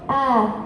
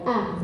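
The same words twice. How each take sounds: First: The vowel is long with a high pitch. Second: The vowel is short. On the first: "la larga alta" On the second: "la vocal corta"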